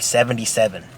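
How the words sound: It is said in a stern, disapproving tone. It is a serious offense and bad news. "He didn't say it like that. He was like"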